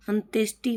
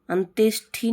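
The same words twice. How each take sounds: First: अंत्येष्टि ending in unaspirated ti; correct form of अंत्येष्टि. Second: अंत्येष्टि ending in aspirated thi; wrong form of अंत्येष्टि. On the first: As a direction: say अंत्येष्टि with no puff on the final t. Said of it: "होता है". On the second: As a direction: say अंत्येष्टि with a puff of air on the final t. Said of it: "नहीं होता". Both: Shown as a demonstration.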